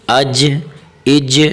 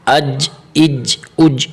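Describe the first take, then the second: First: اج with the final ج lightly shaken; qalqala on اج. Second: اج said without the qalqala bounce, the wrong way. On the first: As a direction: bounce the ج of اج gently. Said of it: "ہلکا سا حرف کو تھوڑا سا ہلائے". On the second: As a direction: demonstrate the mistake on اج. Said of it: "اس طرح نہیں". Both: Shown as a demonstration.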